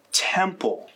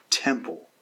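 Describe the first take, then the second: First: Whispered temple, voice dropped out; a reverent whisper on "temple.". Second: Said in the usual way. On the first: Shown as a demonstration. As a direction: breathe the word "temple." as a hushed whisper. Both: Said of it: "Look at the language he uses".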